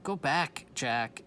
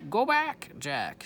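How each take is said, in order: First: Said in the usual way. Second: High, loud parrot squawk on Go back. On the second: Shown as a demonstration. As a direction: screech it like Polly. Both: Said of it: "She's, er".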